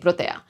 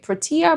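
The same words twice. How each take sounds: First: It is said with a Spanish pronunciation. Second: It is said with an English pronunciation. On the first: "In Spanish, I would say protea" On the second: "I don't know how you say it"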